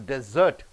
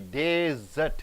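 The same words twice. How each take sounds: First: The stress is on the second syllable. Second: The stress is on the first syllable. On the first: It means to leave someone and get away. "if it is stressed on cert" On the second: It names a dry sandy region. "You stress on D E"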